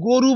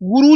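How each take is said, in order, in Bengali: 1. প্রথম স্বরধ্বনিটি 'o' ধ্বনি। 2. প্রথম স্বরধ্বনিটি 'u' ধ্বনি। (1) "তিনি গরু বলেন" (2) "গুরু উচ্চারণ করতে পারেন না"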